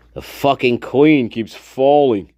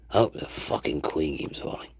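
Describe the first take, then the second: First: Said in the usual way. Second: Whispered. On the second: Real, not acted.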